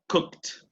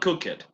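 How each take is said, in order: First: The ending is a short t sound. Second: The ending is an extra syllable, like 'it'. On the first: The speaker calls it right. "Remember the pronunciation of ed" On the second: The speaker calls it wrong. "Not cook it"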